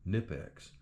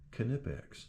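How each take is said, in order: First: The initial K is silent. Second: The initial K is pronounced. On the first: The speaker calls it wrong. "I was calling them Knipex" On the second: The speaker calls it right. "these German pliers pronounce the K"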